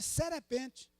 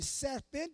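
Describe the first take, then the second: First: An extra vowel is inserted between r and p. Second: It has two syllables before the final one. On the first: The speaker calls it wrong. "de serepente" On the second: The speaker calls it right. "falou o nome serpente"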